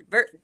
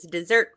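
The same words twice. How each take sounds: First: "divert-" said by mistake instead of "dessert"; "divert-" spoken as a misread for "dessert"; slip of the tongue. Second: "dessert" said correctly with a double S; "dessert" said carefully after the slip; corrected word. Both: Real, not acted. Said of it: "two S's".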